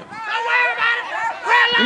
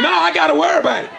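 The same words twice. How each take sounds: First: Breezy don't-worry voice, pitched up; soothing brush-off in a put-on high voice; mock reassurance. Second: Said in the usual way. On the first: Mock reply to his own question.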